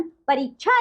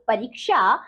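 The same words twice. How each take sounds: First: परीक्षा as "pareechha"; wrong pronunciation. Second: परीक्षा as "pareeksha"; correct pronunciation. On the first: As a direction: say chh for ksh in परीक्षा. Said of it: "आपको कुछ अशुद्ध शब्द". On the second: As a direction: sound both k and sh in परीक्षा. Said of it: "और शुद्ध शब्द". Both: Shown as a demonstration.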